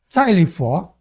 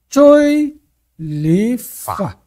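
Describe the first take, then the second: First: The name is pronounced with a Mandarin reading. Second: The name is pronounced with a southern Cantonese reading. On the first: "eu leio ah, Silent For, né? Hum, estou no mandarim" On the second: "que é a pronúncia do sul"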